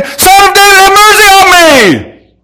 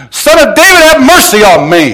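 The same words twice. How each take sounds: First: All-out screamed cry for mercy, stretched long; full scream. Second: Loud, high plea yelled to be heard; yelling. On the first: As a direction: scream the plea at the top of the voice. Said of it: "I'll scream". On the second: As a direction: call out desperately over a crowd. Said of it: "he just starts yelling". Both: Acted.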